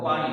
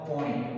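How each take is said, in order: First: The first vowel is an open 'aa' sound. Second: The first vowel is a rounded 'o' sound. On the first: This is the standard form. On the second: This is the dialect form.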